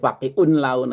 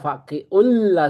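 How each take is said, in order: First: The n sound is pronounced before the l. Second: The n sound merges into the following l. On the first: The speaker calls it wrong. "enggak boleh pakiun laun" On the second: The speaker calls it right. "bacanya faqiul la masuk masuk"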